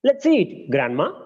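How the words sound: There is a pause after eat.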